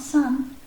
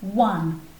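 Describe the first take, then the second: First: The word begins with an s sound. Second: The word begins with a w sound. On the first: The speaker calls it wrong. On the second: The speaker calls it right.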